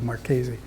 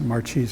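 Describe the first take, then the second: First: The name is said with an Italian pronunciation. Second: The name is said with an American pronunciation. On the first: This is the name's true original form. The speaker calls it right. "his name is actually Marchese" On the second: This is how people locally say it now. The speaker calls it wrong. "they pronounce it Marchese over here now"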